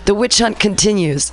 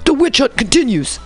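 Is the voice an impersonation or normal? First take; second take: normal; impersonation. First: It is read in a plain, natural voice. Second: It is read in an imitated, put-on voice.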